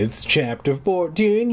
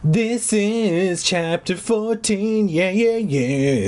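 First: Said in the usual way. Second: High, very slow drawn-out announcing; mock announcement. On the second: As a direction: stretch "This is chapter fourteen" out like a grand reveal. Announces chapter in put-on voice.

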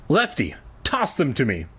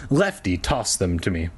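First: Instructing. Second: Said in the usual way. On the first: A narrator's reading. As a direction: direct command, set off after the name. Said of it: "I instructed". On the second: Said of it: "I missed those quotes completely".

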